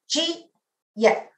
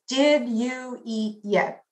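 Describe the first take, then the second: First: It is said quickly, squeezed into two syllables. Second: It is said fully in four separate syllables. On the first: "In my fast New York dialect, I can say this in two syllables" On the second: "In standard English, we have the sentence with four syllables"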